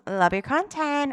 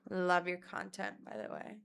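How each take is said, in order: First: Louder, higher, quick mock gushing; gushing fan imitation. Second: Judgy understated compliment. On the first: Contrasting how the girl didn't say it, gushing. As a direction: chirp it like an eager fan. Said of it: "She wasn't on some". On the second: Retold or imitated. Girl judging her TikToks, unimpressed delivery. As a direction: drop it like a backhanded compliment. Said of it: "Oh my God, it was".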